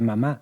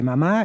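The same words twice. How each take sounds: First: The word ends on a lower pitch. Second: The word ends on a higher pitch.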